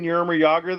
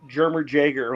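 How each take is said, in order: First: Both names begin with a Y sound. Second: Both names begin with a J sound. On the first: "instead of saying Yermer Yager" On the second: "I used to say Jermer Jager when I was younger"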